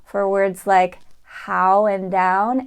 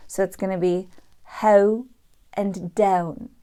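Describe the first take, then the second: First: Said in the usual way. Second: "how" and "down" begun with eh sliding to u; Irish ow. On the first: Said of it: "start the ow diphthong with a little more of a short E". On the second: Shown as a demonstration. Teacher demonstrating the Irish ow in how and down. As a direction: say "how" as heh-oo and "down" as deh-oon. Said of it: "it's gonna be eh, u instead of ah".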